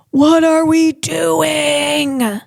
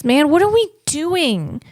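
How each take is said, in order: First: Very slow, drawn-out and pleading; long, slow despairing question; slow exasperated lament. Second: Said in the usual way. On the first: Acted. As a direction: stretch every word in dismay.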